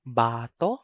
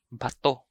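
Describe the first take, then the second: First: Bato with long BAA; stress on first syllable. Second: Bato with short BA, stressed TO; stress on second syllable. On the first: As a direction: stretch the first vowel of bato. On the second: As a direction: clip bato, weight on the last syllable. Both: Shown as a demonstration. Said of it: "I'm going to read".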